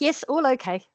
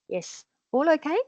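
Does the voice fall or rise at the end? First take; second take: fall; rise. First: The voice falls at the end. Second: The voice rises at the end.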